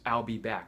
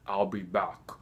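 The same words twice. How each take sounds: First: It is said in a plain, unaccented voice. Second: It is said in a heavy German accent. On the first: Anyone else could say it this way. "even if they said the same words" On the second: It sounds mechanical, like a robot. "how Arnold says says it"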